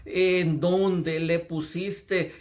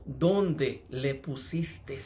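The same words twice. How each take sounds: First: Very slow, troubled question; barely audible grief. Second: Very slow, heavy sighing question; sighing grief. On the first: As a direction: drag the words out as if choked with sorrow. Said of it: "casi no se le pudo entender las palabras". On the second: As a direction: let the words out on a grieving sigh, very slowly. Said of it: "lanzó ese suspiro cuando él dijo". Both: Acted.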